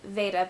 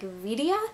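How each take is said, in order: First: It is said with two syllables, like Veda. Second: It is said with three syllables, like video. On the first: "I was pronouncing it Veda" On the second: "it could be like Vidia? Like video!"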